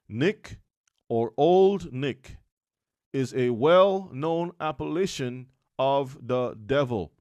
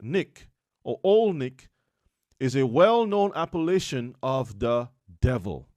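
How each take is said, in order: First: It is read slowly. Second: It is read at normal speed.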